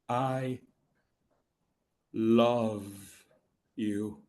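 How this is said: The stress falls on the middle word. The feeling itself is being revealed. "there's that middle word. You know that word. That's the magic word"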